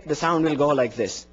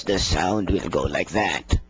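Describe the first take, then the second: First: Said in the usual way. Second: Squeezed, low, slow voice from a crushed throat; the strangled tone you get with a squashed neck; compressed voice. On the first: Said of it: "Take it away". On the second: Shown as a demonstration. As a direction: choke the throat and let the sound sink. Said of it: "take your hand like this and compress".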